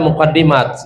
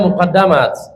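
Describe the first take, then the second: First: The vowel after the double d is 'i'. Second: The vowel after the double d is 'a'. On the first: It means something that comes first. "itu muqaddimah di kasri dal" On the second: It means something deliberately placed first. "Wa bi Fatihah bisa dibaca muqaddamat"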